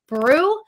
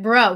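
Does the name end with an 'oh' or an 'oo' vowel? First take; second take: oo; oh. First: The name ends with an 'oo' vowel. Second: The name ends with an 'oh' vowel. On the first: The speaker calls it wrong. "I first thought that her last name was Brew" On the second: The speaker calls it right. "no, it's like bro"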